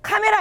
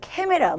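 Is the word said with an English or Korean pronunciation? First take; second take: Korean; English. First: The first vowel is a plain Korean 'a'. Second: The first vowel is an English-like 'ae'. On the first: "카메라 아니죠?" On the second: "막 이렇게 읽어"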